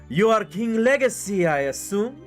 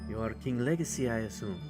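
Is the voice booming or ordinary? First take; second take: booming; ordinary. First: The voice is deep, loud and booming. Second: The voice is ordinary, not deep or loud. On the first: The speaker calls it right. "There we go" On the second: The speaker calls it wrong. "that was not a booming voice to fill the entire room"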